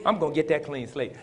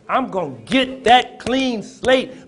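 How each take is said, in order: First: Said in the usual way. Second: Much louder and higher, slow and drawn out; loud preaching cry. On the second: Shown as a demonstration. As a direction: shout the promise like a climax. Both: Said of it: "Somebody say".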